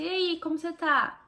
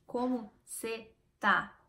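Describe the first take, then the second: First: "como você tá" linked in one quick casual greeting; higher, lively "E aí, como você tá?" with no gaps; words run together. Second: "Como cê tá" slowly, word by word; slow, spaced-out "Como cê tá"; words separated. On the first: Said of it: "mas eu juntei tudo". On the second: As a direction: leave a clear gap between "Como", "cê" and "tá". Shows the unlinked version for contrast. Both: Shown as a demonstration.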